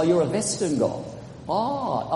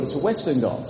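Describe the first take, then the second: First: German accent, "Western" said as "Vestern"; mock German accent. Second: Said in the usual way. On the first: Shown as a demonstration. Preacher joking Goths spoke German, mock German accent. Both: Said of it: "you have a German accent".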